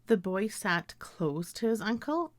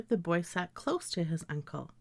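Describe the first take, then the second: First: "close" ending in z, sentence rising; close as CLOZE. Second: "close" with voiceless s, sentence falling; close ending in s. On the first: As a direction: say "close" to rhyme with "nose". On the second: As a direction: say "close" to rhyme with "dose". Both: Shown as a demonstration. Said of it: "I may read these words as".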